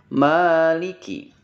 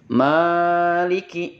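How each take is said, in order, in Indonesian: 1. Vokal pertama ditahan dengan panjang sedang. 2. Vokal pertama dipanjangkan secara berlebihan. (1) "Harusnya maliki" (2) "jangan dibaca berlebihan. Maliki, ini kurang tepat"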